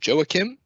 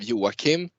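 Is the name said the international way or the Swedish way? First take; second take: international; Swedish. First: The name is pronounced an international, non-Swedish way. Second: The name is pronounced the Swedish way. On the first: "I usually go for" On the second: "the Swedish pronunciation of Joachim"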